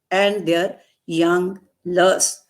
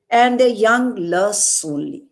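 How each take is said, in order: First: Slow, leaning hard on "lusts"; stress on lusts. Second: Said in the usual way. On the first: Shown as a demonstration. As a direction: draw out "young lusts", punching "lusts". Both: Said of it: "There is stress on this word".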